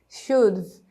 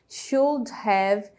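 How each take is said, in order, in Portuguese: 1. As palavras se juntam numa só palavra reduzida. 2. As duas palavras 'should have' são faladas separadamente.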